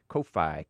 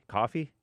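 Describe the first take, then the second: First: It is split into two separate syllables, Ko-Fi. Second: It sounds like the ordinary word coffee. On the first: "so I pronounce it fancy with a hyphen" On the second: "I think it's pronounced coffee"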